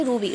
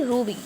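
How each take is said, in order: First: रुबी with a short "oo" in the first syllable; wrong short vowel. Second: रूबी with a long "oo" in the first syllable; long "oo" held in रूबी; correct long vowel. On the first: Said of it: "रूबी नहीं". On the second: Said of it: "खींच के पढ़ेंगे". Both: Shown as a demonstration.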